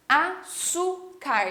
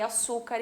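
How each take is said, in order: First: "Açúcar" very slowly as A, ÇÚ, CAR with pauses; syllable by syllable. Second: Said in the usual way. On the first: Shown as a demonstration. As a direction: break "Açúcar" into three separate beats. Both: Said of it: "separei açúcar em sílabas".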